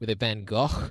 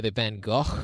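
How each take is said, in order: First: It uses a raspy throat sound for the g. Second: It uses a raspy throat sound for the g.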